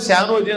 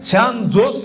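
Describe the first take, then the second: First: The name ends with a vowel sound. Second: The name ends with an s sound. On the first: The speaker calls it right. "అని చదవాలన్నారు" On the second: The speaker calls it wrong. "అనాలి కదా అంటే లేదండి"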